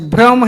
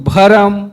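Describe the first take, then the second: First: The bh and r form one cluster. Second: A vowel separates bh from r. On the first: This is the standard form. "आधा रा" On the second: This is the Surgujia form. "पूरा रा"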